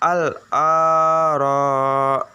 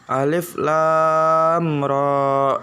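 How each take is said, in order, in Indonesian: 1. Setiap huruf dibaca sebagai suku kata pendek. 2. Setiap huruf dibaca dengan nama lengkapnya.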